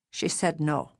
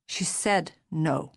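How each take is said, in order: First: Said in the usual way. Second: "She said no." slow, each word weighed; slow heavy repeat. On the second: Acted. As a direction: repeat "She said no." slowly and heavily.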